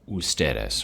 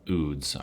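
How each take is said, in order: First: It is said in full with three syllables. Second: It is said as one short clipped syllable. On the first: The speaker calls it right. "it's ustedes" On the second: The speaker calls it wrong. "don't ever say uh, uds"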